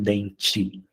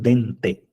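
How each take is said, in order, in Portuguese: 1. O d é solto com uma fricção de chiado. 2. O d é uma parada limpa, sem fricção. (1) "não dente" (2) "Fala bem dente"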